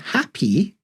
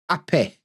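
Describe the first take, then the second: First: The word ends in a long ee sound. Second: The word ends in a short eh sound. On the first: "Instead of happy with the long E sound" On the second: "we just go eh"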